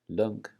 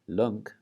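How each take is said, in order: The two takes are said the same way.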